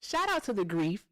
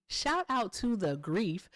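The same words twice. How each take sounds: First: Said in the usual way. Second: Drawn out, each word spaced; slower, deliberate second take; slow emphatic repeat. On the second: Shown as a demonstration. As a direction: savor "grief" slowly like a toast.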